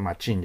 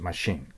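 First: The middle consonant is a 'ch' sound. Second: The middle consonant is an 'sh' sound. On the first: The speaker calls it wrong. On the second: The speaker calls it right.

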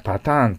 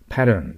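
First: The middle consonant is a clear, hard t. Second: The middle consonant is a quick flap like r. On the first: "日本語ではパターンと言います。" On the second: "パターンでT はラに聞こえるかもしれません。"

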